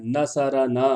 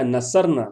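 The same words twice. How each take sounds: First: نصرنا as na-sa-ra-naa, open "a" after ر; vowel on ر. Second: نصرنا as na-sar-na, ر closing the syllable; vowelless ر. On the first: Teacher showing the zabar, نصرنا with voweled ر. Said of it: "را پہ بھی زبر پڑھنا ہے". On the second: Teacher contrasting two written words, نصرنا with vowelless ر. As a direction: run ر straight into نا in نصرنا. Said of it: "اور یہ کیا ہے؟". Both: Shown as a demonstration.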